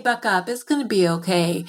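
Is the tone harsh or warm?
warm. The voice sounds warm and encouraging. The listener is being comforted and encouraged. The speaker calls it right.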